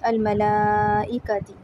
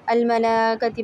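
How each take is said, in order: First: The 'i' sound before 'kati' is fully pronounced. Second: The 'i' sound before 'kati' is skipped. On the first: The speaker calls it right. "हमज़ा को भी हमें उसको पूरा हक़ देना है" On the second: The speaker calls it wrong. "ई को हम छोड़ देते हैं और कती डायरेक्ट पढ़ लेते हैं"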